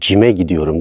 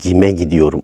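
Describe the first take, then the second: First: The first word begins with a soft J sound. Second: The first word begins with a hard G sound. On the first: The speaker calls it wrong. "cime gidiyorum değil" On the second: The speaker calls it right. "gime gidiyorum olmalıdır"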